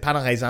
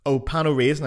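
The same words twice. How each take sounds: First: Pain au raisin in French pronunciation; French vowels and nasal ending on raisin; French accent. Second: Pain au raisin as "pan oh raisin", English raisin; anglicized French. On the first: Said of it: "And I said". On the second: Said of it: "And they went". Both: Retold or imitated.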